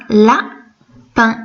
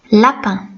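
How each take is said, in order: First: "lapin" split in two, "la", long pause, "pin"; syllable by syllable. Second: Said in the usual way. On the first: Shown as a demonstration. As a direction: say "lapin" slowly, one syllable at a time. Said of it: "tu dois le séparer en syllabes". (« lapin » découpé en syllabes, avec une pause) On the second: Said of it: "le séparer en syllabes".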